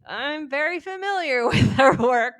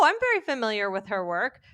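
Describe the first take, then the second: First: It is said in a sarcastic, cynical tone. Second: It is said in a sincere, approving tone. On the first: The work is overrated. "That's where you start to realize what's going on" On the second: The work is genuinely good. "sounds like yeah, she's pre- probably pretty good"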